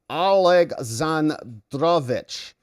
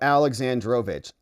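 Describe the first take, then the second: First: The name is said with a Russian accent. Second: The name is said with a plain English accent. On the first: The speaker calls it right. "like that ... work on my uh, Russian accent" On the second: The speaker calls it wrong. "It sounds way cooler than, you know"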